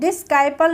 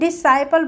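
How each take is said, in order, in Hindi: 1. इस शब्द में s के बाद k की ध्वनि सुनाई देती है। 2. इस शब्द में s के बाद k की ध्वनि सुनाई नहीं देती है। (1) "डिस्काइपल नहीं पढ़ते हैं" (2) "डिसाइपल पढ़ते हैं"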